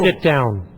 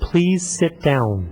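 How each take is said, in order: First: It is said in a harsh, threatening tone. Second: It is said in a nice, polite tone.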